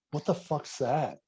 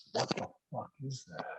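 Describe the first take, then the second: First: Said in the usual way. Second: Stretched out, very soft slow-motion retelling. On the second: Retold or imitated. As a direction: draw the words out softly, as if time slows. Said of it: "It's so slow motion".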